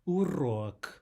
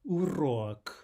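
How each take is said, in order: Both takes have the same delivery.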